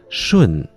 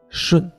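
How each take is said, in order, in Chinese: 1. 去声一直降到最低。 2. 去声没降到底就停住了。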